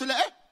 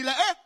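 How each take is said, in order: First: Loud and high call-and-response. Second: The same call pushed even louder and higher; louder repeat. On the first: Preacher leads the first loud reply, loud and high. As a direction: throw it out to the room. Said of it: "طب قولها بصوت عالي". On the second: Preacher demands the reply again, louder and higher. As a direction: really shout it this time. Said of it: "طب قولها مرة تانية". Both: Shown as a demonstration.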